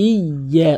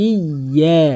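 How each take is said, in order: The two takes are said the same way.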